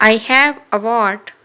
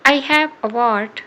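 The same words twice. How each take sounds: The two takes are said the same way.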